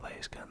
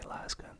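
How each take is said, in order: First: The first syllable rhymes with face. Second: The first syllable rhymes with gas. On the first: The name is linked to the word laser. "I'm always tempted to say lace gun though, because of laser" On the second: This is how others say the name. "I think they say las gun. I guess that's more British pronunciation"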